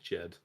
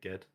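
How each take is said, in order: First: The name starts with a soft J sound. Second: The name starts with a hard G sound. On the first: "a guy at work's called Jed" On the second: "it's pronounced like you would uh, pronounce God"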